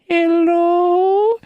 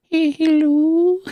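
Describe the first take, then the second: First: Put-on little old lady voice. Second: Put-on much higher, slow girly hello; little girl voice. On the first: Crackhead answering the phone, little lady voice. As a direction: chirp it like a tiny old lady. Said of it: "he sounded like a little old lady". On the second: Patient on the phone, slow high girly voice. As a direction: coo it like a tiny old lady. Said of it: "the moment I heard that".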